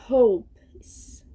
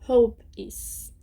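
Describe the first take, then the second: Both takes have the same delivery.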